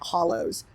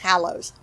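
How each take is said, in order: First: The first vowel sounds like in 'hollow'. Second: The first vowel sounds like in 'hallow'. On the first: The speaker calls it wrong. "I keep pronouncing it Hollows because I'm not paying attention" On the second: The speaker calls it right. "It's Hallows"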